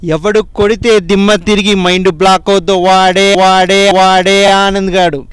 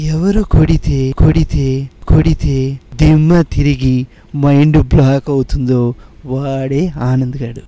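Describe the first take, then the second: First: It is said in a very angry tone. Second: It is said in a very calm tone.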